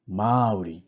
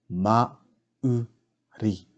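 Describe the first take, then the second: First: Said in the usual way. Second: "Mauri" slowly split as Ma, u, ri; slow teaching breakdown of "Mauri"; broken into syllables. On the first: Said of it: "pronounce these words correctly". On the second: Shown as a demonstration. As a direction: sound out "Mauri" with a gap after each part. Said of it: "break down the words first".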